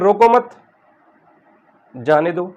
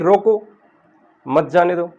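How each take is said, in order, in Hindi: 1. Stress और break 'mat' के ठीक बाद आता है। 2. स्ट्रेस और ब्रेक 'roko' के ठीक बाद आता है। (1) "यहाँ स्ट्रेस हमने रोको मत के बाद दिया" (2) "यहाँ हमने स्ट्रेस रोको पर दिया"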